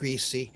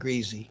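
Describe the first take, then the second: First: It is said the northern regional way. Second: It is said the southern regional way. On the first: "those of us from the north said greasy" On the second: "those of us from that line south said greasy"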